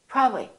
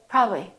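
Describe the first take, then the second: The two takes are said the same way.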